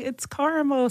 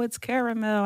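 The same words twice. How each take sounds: First: "caramel" said as CAR-mul; two-syllable caramel. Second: "caramel" said as CARE-uh-mel; three-syllable caramel. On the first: Mother insisting to her daughter, "caramel" as CAR-mul. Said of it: "And I'm like". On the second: Daughter correcting her mother, "caramel" as CARE-uh-mel. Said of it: "she's like, "It's not caramel, it's caramel". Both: Retold or imitated.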